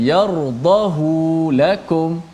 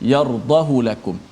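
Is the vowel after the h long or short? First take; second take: long; short. First: The vowel after the h is lengthened. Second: The vowel after the h is short. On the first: This follows the general rule. The speaker calls it wrong. "kalau ikut kaedah asasnya, asalnya, maka dibaca dengan" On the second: This is the exception for this word. The speaker calls it right. "tidak baca dengan panjang"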